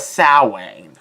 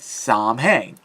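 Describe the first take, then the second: First: The name is pronounced the traditional Irish way. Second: The name is pronounced following its English spelling. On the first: The speaker calls it right. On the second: The speaker calls it wrong.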